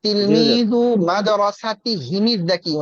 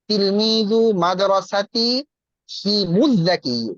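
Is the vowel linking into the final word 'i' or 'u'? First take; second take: i; u. First: The linking vowel before the last word is i. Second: The linking vowel before the last word is u. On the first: The speaker calls it wrong. "না মনে হয়" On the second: The speaker calls it right. "এটা অটোমেটিক পেশ হয়ে যায়"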